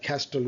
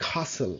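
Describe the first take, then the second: First: CASTLE with the t sounded; mistaken pronunciation. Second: CASTLE with no t, as "kah-sul"; silent t. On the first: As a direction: say castle as "kas-tul". (castle-এর ট উচ্চারণ করে ভুল উচ্চারণ) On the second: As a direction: drop the t in castle. (castle-এর ট বাদ দিয়ে "কাসল") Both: Shown as a demonstration. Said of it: "castle না".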